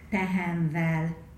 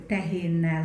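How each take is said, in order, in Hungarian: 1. A végződést v hanggal mondják. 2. A végződést hosszú n hanggal mondják. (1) "hanem azt mondják" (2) "nálunk nem mondják azt"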